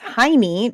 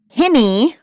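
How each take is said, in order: First: The first vowel is a long 'eye' sound. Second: The first vowel is a short 'i' sound. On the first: It is read the way an American reader would say it. The speaker calls it wrong. "here in the United States is Hiney" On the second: It is the name's intended pronunciation. The speaker calls it right. "it's actually pronounced Hinny"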